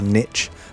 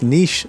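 First: The word is said the American way. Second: The word is said in a non-American way.

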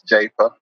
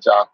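First: The A vowel is said hard. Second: The A vowel is said soft. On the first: The speaker calls it right. "it's definitely Jafa with a hard A" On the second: The speaker calls it wrong. "it's not Jafa"

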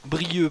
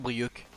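First: The name ends on a vowel, no k sound. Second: The name ends with a clear k sound. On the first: The speaker calls it right. "Brieux, pardon" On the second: The speaker calls it wrong. "On dit pas le C de Brioc"

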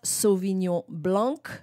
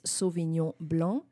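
First: The name is pronounced with English sounds. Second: The name is pronounced with French sounds. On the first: The speaker calls it wrong. "So it's not Sauvignon Blanc" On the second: The speaker calls it right. "It's Sauvignon Blanc"

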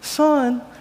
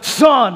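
First: It is said in a gentle, nice tone. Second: It is said in a stern, sharp tone.

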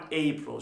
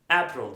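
First: The first vowel glides like 'ay'. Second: The first vowel is a plain 'ah' sound. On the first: The speaker calls it right. "April şeklinde okumamız gerekiyor" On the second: The speaker calls it wrong. "April diye okunuyor"

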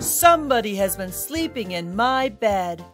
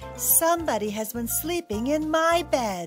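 First: It is said in a big, booming deep voice. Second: It is said in a medium, grumbling voice.

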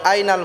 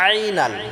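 First: The first sound is plain, without throat pressure. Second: The first sound is pressed from the throat. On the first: The speaker calls it wrong. "আইনাল বললে হবে না" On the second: The speaker calls it right. "আইনটা আমরা গলায় চাপ দিয়ে উচ্চারণ করব"

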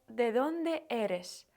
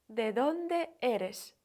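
No difference in how they are said.

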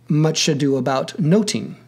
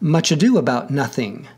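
First: The word nothing has a t sound. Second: The word nothing has a th sound. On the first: This is how the title was said in Shakespeare's London. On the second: This is how the title is said today.

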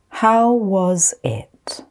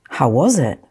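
First: The phrase is spoken slowly. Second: The phrase is spoken at normal speed. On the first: "I'm going to say them slowly first" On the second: "Then I'll say them at normal speed"

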